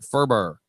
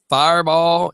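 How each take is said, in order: First: The word is said fast with syllables squeezed. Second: The word is said slowly with all syllables.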